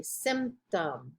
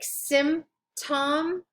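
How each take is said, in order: First: "symptom" as sim-tum in one go, lower and softer; silent P, joined up. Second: "symptom" very slowly as sim, tom, with no P; silent P, split syllables. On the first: Teacher repeating the example word, natural silent P. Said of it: "you don't pronounce that P, symptom". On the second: Teacher breaking down an example word, slow silent P. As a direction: stretch "symptom" into two separate beats, P left out. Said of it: "you don't pronounce that P". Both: Shown as a demonstration.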